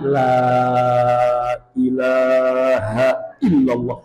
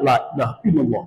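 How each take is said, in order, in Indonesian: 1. Frasa itu diucapkan lambat. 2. Frasa itu diucapkan cepat. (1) "yang pertama pelan"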